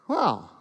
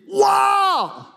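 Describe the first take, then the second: First: It sounds let down and disappointed. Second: It sounds impressed and delighted.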